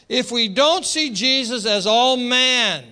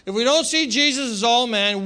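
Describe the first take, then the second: First: Slow, leaning hard on don't; stress on don't. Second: Said in the usual way. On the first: Shown as a demonstration. Preacher slowing down so the congregation follows, stressing don't. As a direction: press the word don't slowly, making them follow. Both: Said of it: "follow me here".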